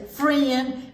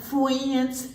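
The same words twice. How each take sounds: First: Slow, careful "friend" with a clear FR; correct friend. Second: "friends" as foo-WEE-ends; mispronounced friends. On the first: Storyteller asking children to repeat, "friend" said with clear fr. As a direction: sound out "friend" with its r. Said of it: "Can you say friend and not". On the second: Storyteller showing children the wrong way, "friends" as foo-WEE-ends. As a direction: draw out "friends" with w for r. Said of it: "and not friends". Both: Shown as a demonstration.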